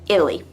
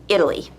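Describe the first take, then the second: The two takes are said the same way.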